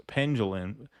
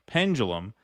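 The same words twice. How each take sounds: First: Pendulum slurred as pen-zhuh-lin, the d and final m blurred; stumbled pendulum. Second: Pendulum said carefully as pen-dyuh-lum with a clear d and final m; corrected pendulum. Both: Shown as a demonstration.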